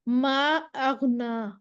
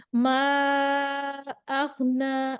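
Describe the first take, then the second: First: ما stretched out long and slow; long madd. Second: ما held very long and slow, four counts; four-count madd. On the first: Teacher demonstrates a four-count madd on ما. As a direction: hold the vowel of ما for four counts. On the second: Teacher models the long madd for students. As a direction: stretch ما out for four full counts. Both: Shown as a demonstration. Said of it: "four counts دے دیں گے ہم".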